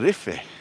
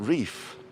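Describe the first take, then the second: First: A final vowel sound is heard after the f. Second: The word ends on the f with no vowel. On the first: The speaker calls it right. "Tenerife pronounces the E too. So it would be Rife" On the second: The speaker calls it wrong. "not Reef"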